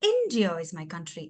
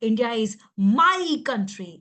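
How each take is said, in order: First: The stress falls on the word India. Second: The stress falls on the word my. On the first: The point is which country it is. "అప్పుడు భారతదేశం అంటున్నా" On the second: The country is mine, not yours. "నా, నా. నీది కాదు నాది"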